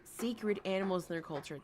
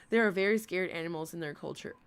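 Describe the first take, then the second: First: "Sacred" said as SAY-krid, two syllables, a long a first; corrected pronunciation. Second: "scared" said as SKAIRD, the vowel of care, instead of sacred; misreading sacred as scared. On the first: Shown as a demonstration. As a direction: fix the slip and say "Sacred" clearly. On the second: Real, not acted. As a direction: slip and say "scared" in place of sacred. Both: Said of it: "I almost said scared".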